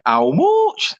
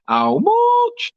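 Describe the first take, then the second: First: A light mock Yorkshire accent, a bit higher; Yorkshire twang. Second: Hammed-up Yorkshire accent, squeaked very high; a mock Yorkshire shriek over the price, "How much?" held long; Yorkshire war cry. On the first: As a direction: tease a Yorkshire friend with a mild Yorkshire "How much?", rising at the end. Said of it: "pure, um, Yorkshire twang". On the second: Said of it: "The Yorkshire war cry".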